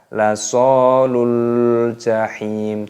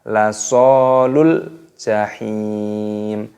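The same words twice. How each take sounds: First: The final vowel is held long before the next word. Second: The final vowel is short and runs straight on. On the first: The speaker calls it wrong. "Tidak dibaca lasolul jahim, tidak seperti itu" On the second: The speaker calls it right. "di sini langsung dimasukkan"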